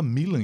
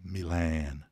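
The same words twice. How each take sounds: First: It is pronounced with Portuguese sounds. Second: It is pronounced with English sounds. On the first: "A gente fala Milan em português" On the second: "Em inglês"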